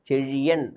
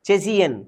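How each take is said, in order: First: The middle consonant is a retroflex zh sound. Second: The middle consonant is a plain s sound. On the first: The speaker calls it right. "லகரம் ழா" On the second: The speaker calls it wrong. "அவங்களுக்கு அந்த ழாவே வரல"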